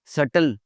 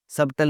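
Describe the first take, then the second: First: सटल with no b; silent B. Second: सबटल with the b sounded; mispronounced B. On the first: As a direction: say सटल as sut-tul. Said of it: "बोलना है सटल". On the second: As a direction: say सबटल as sub-tul. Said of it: "सबटल नहीं बोलना". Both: Shown as a demonstration.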